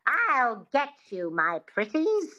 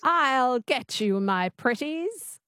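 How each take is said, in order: First: A light Wicked Witch twang, drawn out; slow witchy line, mildly voiced; witch twang demo. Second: Slow, lightly voiced witch imitation; copying the witch twang. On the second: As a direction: try the witchy twang slowly. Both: Shown as a demonstration. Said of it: "Just say that".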